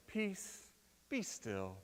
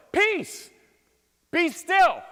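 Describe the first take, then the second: First: Mild soft reading. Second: Much higher, louder commanding shout. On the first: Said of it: "I don't like the translation here". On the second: Preacher showing Jesus's real tone to the sea, commanding shout. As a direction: bark it at the storm. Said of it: "It's more like". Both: Shown as a demonstration.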